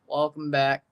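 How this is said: The greeting is said in a sad tone. The speaker calls it wrong.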